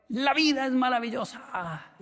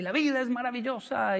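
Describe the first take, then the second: First: High, slow sing-song cry; teacher's motto. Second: High, sing-song mock teacher cry; teacher's motto. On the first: Retold or imitated. Teacher repeating his motto to the student, slow, high sing-song. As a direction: draw it out like the teacher's anthem. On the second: The whole class parroting the teacher, a high sing-song cry. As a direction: chant it like the eccentric teacher. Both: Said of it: "toda la clase era así".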